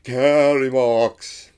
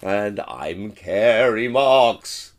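First: Kerry Marks, slow, loud, pitch dipping and rising; wobbly name. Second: Kerry Marks said very slowly and loudly; slow drawn-out name. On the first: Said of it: "didn't even say it right myself". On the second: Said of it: "the correct way to say it". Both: Shown as a demonstration.

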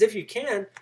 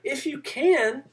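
First: Said in the usual way. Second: High, slow, disbelieving echo; incredulous. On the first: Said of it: "Father says". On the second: Acted. Jesus echoing the father's doubt, incredulous. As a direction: toss his doubt back at him, amazed. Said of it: "Jesus is almost incredulous".

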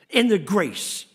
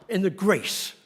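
No difference in how they are said.

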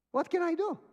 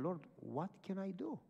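First: High, loud mock desperation; exasperated cry. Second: Soft retold plea to God; inward prayer. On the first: Retold distressed exclamation. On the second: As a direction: pray it softly, as if in thought. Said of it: "So I prayed in my mind".

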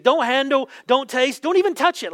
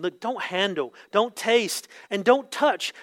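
First: Mock scolding, higher and quicker; sarcastic escalation. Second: Said in the usual way. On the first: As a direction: rattle off mocking prohibitions, building urgency. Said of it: "a little bit of sarcasm here". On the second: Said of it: "these ascetic practices are saying".

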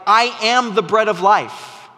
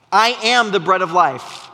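First: "I" hit hardest, falling at the end; stress on I. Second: "am" hit hardest, falling at the end; stress on am. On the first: Preacher quoting Jesus to his church, stressing "I". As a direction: lean on the word "I" in "I am the bread of life". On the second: Preacher repeating Jesus' claim, now stressing "am". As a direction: lean on "am" in "I am the bread of life". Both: Shown as a demonstration. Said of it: "When he says things like".

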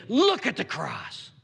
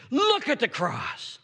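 First: Said in the usual way. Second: Higher, slow, pleading repeat; raised repeat. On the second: Acted. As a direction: lift it the second time to press them.

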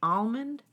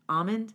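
First: "almond" with the L sounded, questioning. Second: "almond" with silent L, questioning; almond without L. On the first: Testing it out for a friend, almond with L. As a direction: try "almond" with an audible L. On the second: Testing the other way for a friend, almond without L. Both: Shown as a demonstration. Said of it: "this almond, a-, almond thing".

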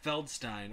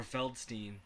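First: Feldstein ending like "stine"; alternate pronunciation. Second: Feldstein ending like "steen"; alternate pronunciation. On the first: Giving co-hosts an actor's surname, Feldstein ending in "stine". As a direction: say Feldstein with a long-i last syllable. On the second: Offering co-hosts a second surname reading, Feldstein ending in "steen". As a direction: say Feldstein with a long-ee last syllable. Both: Shown as a demonstration.

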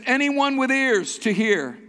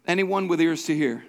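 First: "Anyone" raised high and drawn out; emphatic reading. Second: Said in the usual way. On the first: Shown as a demonstration. Pastor showing the verse's emphasis, emphatic slow reading. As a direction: read it slowly, high, leaning on "Anyone". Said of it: "Notice the emphasis". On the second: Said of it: "the emphasis".

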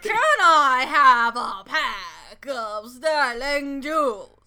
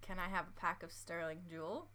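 First: Very loud, drawn-out mock British accent; big, slow, over-the-top British impression; exaggerated British accent. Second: Quiet, careful try at a British accent; softly attempted British accent. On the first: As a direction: belt out a hammed-up British accent, stretching every word. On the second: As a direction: tentatively put on your co-host's British accent. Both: Shown as a demonstration. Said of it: "In my accent or your accent? Yours".

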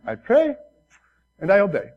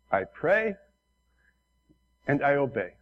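First: Put-on Korean accent. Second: Put-on light Korean-accented English, smiling; imitating the pastor's broken Korean accent. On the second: Retelling the Korean pastor's humble answer in Korean accent. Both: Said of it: "in his broken Korean accent".

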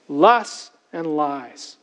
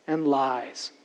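First: "Lusts and lies." said very slowly, each word weighed, with the weight on "Lusts"; slow emphatic repeat. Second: Said in the usual way. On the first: Shown as a demonstration. Preacher repeating the phrase to the congregation, slow and weighty. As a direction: slowly drive "Lusts and lies." home, leaning on "Lusts".

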